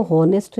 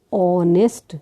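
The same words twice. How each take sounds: First: हॉनेस्ट with the h sounded; deliberate mistake हॉनेस्ट, starting on an audible h; wrong pronunciation. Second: ऑनेस्ट with a silent h, opening on the vowel; teacher's model ऑनेस्ट, no h at the start; correct pronunciation. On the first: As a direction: misread हॉनेस्ट, voicing its opening h. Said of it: "हम इसको हॉनेस्ट नहीं बोलते". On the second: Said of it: "कैसे बोलते हैं". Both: Shown as a demonstration.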